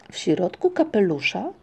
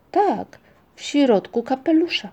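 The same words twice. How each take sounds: First: Doubtful, rising question; suspicious echo ending on a rise. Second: Higher-pitched confirming answer; firm yes, stated as fact; affirming. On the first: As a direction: query it warily. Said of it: "zapytał Migotek podejrzliwie". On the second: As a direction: nod along in the voice, confirming. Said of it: "przytaknął Muminek". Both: A narrator's reading.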